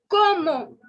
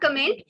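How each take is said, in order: First: It is said like 'como', with no final t. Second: It is said like English 'comment', ending in t. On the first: The speaker calls it right. "It is como" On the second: The speaker calls it wrong. "It is not comment"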